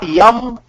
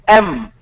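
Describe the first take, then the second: First: It begins with a y sound before the vowel. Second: It begins directly with the vowel sound. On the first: The speaker calls it wrong. "It is not yum" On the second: The speaker calls it right. "it is M"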